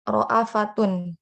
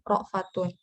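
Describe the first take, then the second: First: A glottal stop with a short 'a' follows 'ra'. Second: A bare glottal stop follows 'ra', without a vowel.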